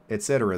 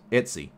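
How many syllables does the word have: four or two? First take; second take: four; two. First: The word is said with four syllables. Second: The word is said with two syllables. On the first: "That's four s- syllables" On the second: "two syllables"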